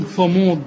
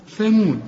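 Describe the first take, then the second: First: "ثمود" with a thick, dark first syllable; mistaken heavy th. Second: "ثمود" with a thin th and front a; light th. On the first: Teacher mimicking the wrong reading, heavy th. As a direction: back the vowel in "ثمود". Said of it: "ولا تقول". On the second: Teacher modelling the correct reading, light th. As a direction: keep the start of "ثمود" light. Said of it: "الثاء مرققة". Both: Shown as a demonstration.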